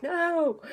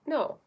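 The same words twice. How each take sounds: First: A sharp, higher "No." pushed out hard; harsh no. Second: Sweet no. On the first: Showing viewers the wrong, harsh way to refuse. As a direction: snap the "No." as a rude refusal. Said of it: "no, not like". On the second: Showing viewers a sweet way to refuse, a gentle no. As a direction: say "No." kindly and lightly, no edge. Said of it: "And like a sweet". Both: Shown as a demonstration.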